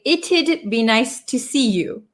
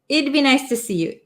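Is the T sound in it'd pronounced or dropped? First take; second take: pronounced; dropped. First: Both the t and d sounds are pronounced. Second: The t sound is dropped, leaving id. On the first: "the t and then the d sound" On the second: "we kind of take out that T sound"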